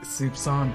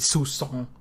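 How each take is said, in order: First: The word is said with a P sound. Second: The word is said without a P sound. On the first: The speaker calls it right. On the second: The speaker calls it wrong.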